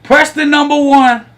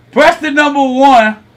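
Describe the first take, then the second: No difference in how they are said.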